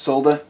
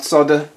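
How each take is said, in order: First: The l sound is clearly pronounced. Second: The l sound is silent. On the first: The speaker calls it right. "it's solder. Look at how it's spelt" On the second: The speaker calls it wrong. "It's not solder"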